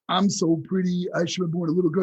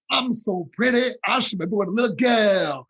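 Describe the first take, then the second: First: It is said in a plain, unaccented voice. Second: It is said in a southern accent. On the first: The speaker calls it wrong. "no, no, because you got to do it with a southern accent" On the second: The speaker calls it right. "Like that"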